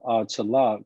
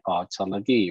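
First: The final vowel is dropped. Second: The final vowel is pronounced. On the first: This is the casual spoken form. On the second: This is the full form.

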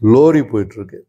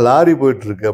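First: Lorry is said with a rounded o vowel. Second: Lorry is said with an open a vowel. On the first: The speaker is from Kerala. "இவர் வந்து கேரளாவை சேர்ந்தவர்னு தெரியும்" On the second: The speaker is from Tamil Nadu. "அவர் வந்து தமிழ்நாட்டை சேர்ந்தவர்னு"

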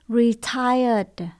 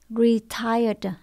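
No difference in how they are said.

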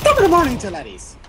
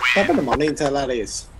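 First: It imitates one particular person's exaggerated voice. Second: It uses a plain, generic Irish accent. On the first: It mimics one specific person. "If I was going to say in his voice" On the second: It is just a common greeting. "that's a generic Irish greeting"

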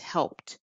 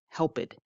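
First: The ending is a plain t sound. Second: The ending is an extra id syllable. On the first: The speaker calls it right. "it's helped, T sound" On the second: The speaker calls it wrong. "helped becomes helped. That's not correct"

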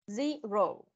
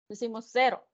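First: The word begins with a z sound. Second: The word begins with an s sound. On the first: The speaker calls it right. "¿Se recuerdan del sonido de la Z? Se pone en práctica en el 0" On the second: The speaker calls it wrong. "Decimos 0, así tal cual, pero no es 0"

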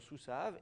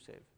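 First: The last syllable has an 'a' vowel. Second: The last syllable has an 'e' vowel. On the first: This follows the Masoretic reading tradition. "leur tradition de prononciation sous sav" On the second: This follows the other reading tradition. "non pas de l'autre tradition de prononciation"

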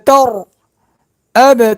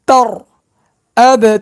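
Both takes have the same delivery.

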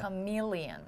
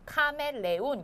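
First: The second syllable is long and stressed. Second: Even syllables, with no long stressed vowel. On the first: "me가 조금 길게 사운드가 되는군요" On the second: "한국 사람들은 카멜레온 이렇게 표현을 하거든요"

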